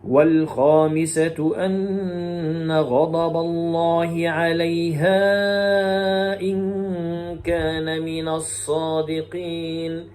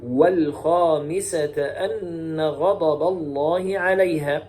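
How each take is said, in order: First: Slow, drawn-out Quran chant, "والخامسة" as wal-khamisatu; Shu'ba's recitation. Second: Slow Quran chant, "والخامسة" as wal-khamisata; Hafs's recitation. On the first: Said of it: "فيقرأ هكذا". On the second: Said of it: "ويقرأ حفص". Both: Shown as a demonstration.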